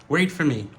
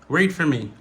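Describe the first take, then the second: Both takes have the same delivery.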